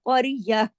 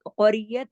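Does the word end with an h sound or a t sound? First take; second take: h sound; t sound. First: The word ends with an h sound. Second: The word ends with a t sound. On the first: The reader stops on this word. "अगर रुकेंगे तो क़रियह" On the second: The word is joined to what follows. "मिला के पढ़ते हैं तो क़रियत"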